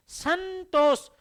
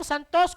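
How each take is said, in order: First: संतोष said alone, higher and carefully, the न heard through the nose; model pronunciation. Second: Said in the usual way. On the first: Shown as a demonstration. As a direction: show the class how संतोष sounds. (संतोष का स्पष्ट उच्चारण) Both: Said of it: "जैसे हम संतोष को उच्चारण करेंगे".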